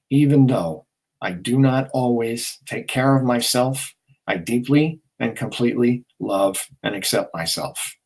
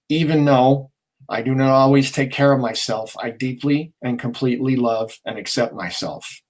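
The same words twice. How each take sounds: First: It is said slowly. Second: It is said at normal speed.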